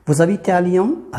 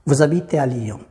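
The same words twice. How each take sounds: First: Slow and higher, "Lyon" rising at the end; question intonation. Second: Said in the usual way. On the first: Shown as a demonstration. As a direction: ask it by lifting "Lyon". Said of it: "هذا سؤال". (نبرة سؤال، الصوت طالع في "Lyon") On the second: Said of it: "هذا إخبار".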